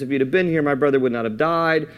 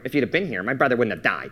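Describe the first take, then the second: First: It is read in a plain, neutral tone. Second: It is said with a resentful, accusing tone.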